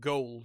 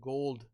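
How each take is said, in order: First: The word has a neutral, non-Scottish accent. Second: The word has a heavy Scottish accent. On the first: "Not gold" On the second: "with a heavier Scottish accent, he would have said like something like gold"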